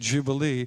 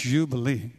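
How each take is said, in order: First: The word begins with an English J sound. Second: The word begins with a Y sound. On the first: The speaker calls it wrong. "So we say Jubilee" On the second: The speaker calls it right. "the letter would be a Y"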